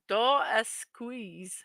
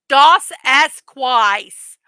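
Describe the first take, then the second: First: The name is pronounced in the standard way. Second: The name is pronounced with extra, distorted sounds. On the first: The speaker calls it right. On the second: The speaker calls it wrong.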